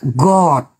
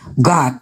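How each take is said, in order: First: The word is said with a British accent. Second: The word is said with an American accent. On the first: The speaker calls it right. "Yang betul" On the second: The speaker calls it wrong. "Kita ini kan pengaruh Hollywood nih. Kita bilang God"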